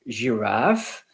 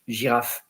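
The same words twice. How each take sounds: First: The word has an English pronunciation. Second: The word has a French pronunciation. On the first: "in English it's giraffe" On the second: "and in French giraffe"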